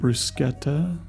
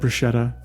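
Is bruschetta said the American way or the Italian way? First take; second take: Italian; American. First: It is said with an Italian pronunciation. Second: It is said with an American pronunciation. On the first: The speaker calls it right. "which I don't normally call it that" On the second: The speaker calls it wrong. "I just call it bruschetta. I know it's not right"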